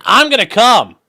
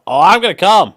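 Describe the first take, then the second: First: Louder and higher, hammed-up; jokey moaning read of a super chat; mock moan. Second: Louder, higher mock climax; loud, higher mock moan; hammed-up moan. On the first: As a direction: overdo it for a laugh. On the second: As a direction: camp it up as a joke. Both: Shown as a demonstration. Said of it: "Well, hold on".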